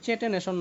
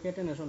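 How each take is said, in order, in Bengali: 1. শব্দটি ch ধ্বনি দিয়ে শুরু হয়। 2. শব্দটি k ধ্বনি দিয়ে শুরু হয়। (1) "এটা কিন্তু চেটেনেশন না আবার" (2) "কেটেনেশন উচ্চারণটা হবে কেটেনেশন"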